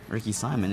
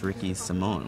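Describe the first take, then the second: First: The surname is said like 'SY-mun'. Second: The surname is said like 'si-MOHN'. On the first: The speaker calls it wrong. "is not Ricky Simon" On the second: The speaker calls it right. "it's Ricky Simone"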